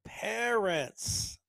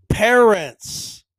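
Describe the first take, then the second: First: PARENTS stretched out, higher and softer; drawn-out emphasis. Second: PARENTS blasted out loud and higher; emphatic. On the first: Host repeating his point to slow learners, softly emphatic. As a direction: say PARENTS softly and long, as if spelling it out. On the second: Host driving his one point home, loudly emphatic. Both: Real, not acted. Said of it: "I keep emphasizing that word".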